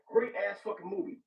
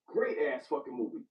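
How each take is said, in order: First: Said in the usual way. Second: Weighty, lower, savoring each word; low slow repeat. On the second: Shown as a demonstration. Friend repeating his verdict on the movie, low and slow. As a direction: drop the voice low and say it slowly. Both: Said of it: "repeated deliberately lower".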